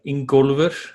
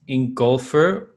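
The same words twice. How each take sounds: First: The name is pronounced with Icelandic sounds. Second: The name is pronounced with English sounds.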